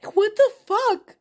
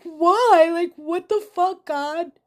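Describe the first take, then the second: First: Much higher and louder, voice cracking open; raw outcry. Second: Loud, higher cry of why, hurled upward; mother cries out to God after crash, furious and anguished; anguished shout at God. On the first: Real, not acted. Woman vents rage at God over her loss, shouting. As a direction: shout it up at the sky, furious. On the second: Retold or imitated. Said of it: "And I'm like".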